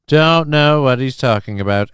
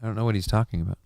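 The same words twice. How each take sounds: First: Louder, emphatic repeat; loud denial. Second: Softer, offhand aside; quiet denial. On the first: Streamer publicly denying a chat jab about impressions, loud denial. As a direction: announce it firmly to everyone. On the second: Streamer brushing off a chat jab about impressions, quiet denial. Denial muttered, then repeated louder. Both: Pretend.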